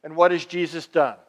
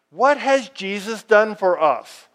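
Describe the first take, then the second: First: Said in the usual way. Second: "What has Jesus done for us?" pitched up and projected; emphatic repeated question. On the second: Real, not acted. Preacher driving "What has Jesus done for us?" home to congregation, emphatic.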